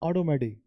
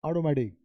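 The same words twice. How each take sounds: No difference in how they are said.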